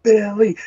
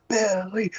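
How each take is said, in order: First: Louder, higher call of Billy; mock crowd cheer. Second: A softer first call of Billy, pitched up; mock crowd cheer. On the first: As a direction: let the second Billy ring out. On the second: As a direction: start the chant soft and high. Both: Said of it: "dormouse over there cheering".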